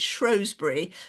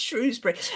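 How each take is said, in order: First: The name is said in a posh-sounding way. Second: The name is said in a plain, ordinary way. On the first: This is how the speaker was raised to say it. "I think that's kind of rather posh way of pronouncing it" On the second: This is how it is said nowadays. "Now it's"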